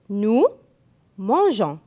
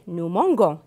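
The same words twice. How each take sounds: First: The g is said as a soft g. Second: The g is said as a hard g. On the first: The speaker calls it right. "Donc, nous mangeons" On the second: The speaker calls it wrong. "Si je n'écris pas E, je vais prononcer nous mangeons et c'est faux"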